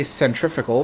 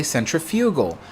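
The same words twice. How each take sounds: First: "centrifugal" as sen-TRIF-uh-gal; American pronunciation. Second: "centrifugal" as sen-tri-FYOO-gal; British pronunciation. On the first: He says it his American way, "centrifugal" with stressed TRIF. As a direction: stress TRIF in "centrifugal", short vowels after. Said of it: "because I'm American". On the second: He shows what UK speakers say, "centrifugal" with stressed FYOO. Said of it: "If you're from the U K". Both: Shown as a demonstration.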